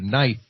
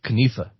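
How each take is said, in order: First: The k is silent and the vowel is 'eye'. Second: The k is sounded and the vowel is 'ee'. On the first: This is how the word is said today. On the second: This is how the word was said before French influence.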